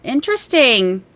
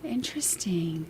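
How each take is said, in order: First: "Interesting" stretched out slowly; drawn-out interest. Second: Slow whispered "Interesting". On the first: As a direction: linger over "Interesting" in full voice. Reacting aloud to viewer's verdict. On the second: Streamer musing on a viewer's verdict, whispered. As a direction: draw out "Interesting" in a hushed whisper. Repeats the word under breath. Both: Real, not acted.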